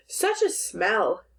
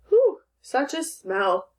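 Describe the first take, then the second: First: Said in the usual way. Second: Slow, higher-pitched reaction to a smell; mild exclamation. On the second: Shown as a demonstration. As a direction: read it slowly as a mild exclamation. Rereads example as an exclamation.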